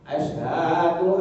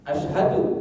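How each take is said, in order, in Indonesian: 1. Sebuah vokal dibaca panjang. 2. Vokal-vokal dibaca pendek. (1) "hanya panjang ... salah Pak" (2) "itu yang benar"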